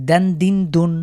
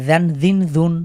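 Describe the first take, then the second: The two takes are said the same way.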